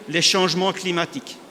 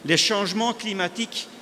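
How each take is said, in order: Both takes have the same delivery.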